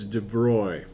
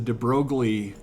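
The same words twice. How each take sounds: First: The name is pronounced the French way. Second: The name is pronounced the English way. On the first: The speaker calls it right. "I guess in French it's de Broglie" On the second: The speaker calls it wrong. "I think you ask most general chem students and they're like"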